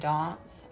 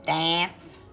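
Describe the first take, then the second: First: It is said with a South African-influenced pronunciation. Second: It is said with the usual common pronunciation. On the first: This is the speaker's own family-influenced way. "I say dance" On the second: This is how most people say it. "everyone says dance"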